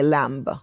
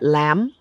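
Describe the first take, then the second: First: The final B sound is pronounced. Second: The final B sound is silent. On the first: "in Kenya, they say lamb" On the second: "we know we don't say the B"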